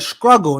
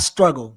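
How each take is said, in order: First: It begins with an skr sound. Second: It begins with an str sound. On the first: "in South Carolina we S K struggle" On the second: "not struggle"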